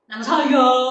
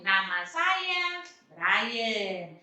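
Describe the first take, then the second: First: It sounds fierce and scary. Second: It sounds friendly and smiling.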